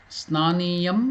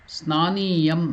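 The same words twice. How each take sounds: The two takes are said the same way.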